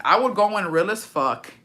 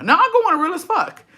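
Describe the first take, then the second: First: Said in the usual way. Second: High-pitched joking declaration; exaggerated, squeaky-high insistence; mock insistence. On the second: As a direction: swoop way up high on it. Jokes, then takes it back.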